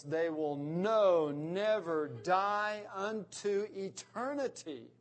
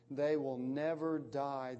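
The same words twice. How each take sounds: First: Slow, louder stress on "know" and "never"; emphatic. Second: Said in the usual way. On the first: Shown as a demonstration. Pastor rendering Jesus' promise with slow, heavy stress. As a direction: lean hard and slow on "never die unto eternity". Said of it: "that is incredibly emphatic in the Greek text". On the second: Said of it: "that is incredibly emphatic".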